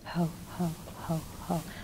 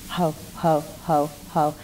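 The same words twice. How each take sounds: First: It is said softly and quietly. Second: It is said louder than before.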